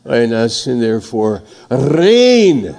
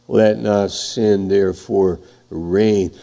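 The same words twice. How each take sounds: First: Reign said with a strong trilled R; rolled R on reign. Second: Said in the usual way. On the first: Shown as a demonstration. Pastor demonstrating the verse with a rolled R on reign. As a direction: let the R of reign roll, a bit louder. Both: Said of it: "Let's say it like that".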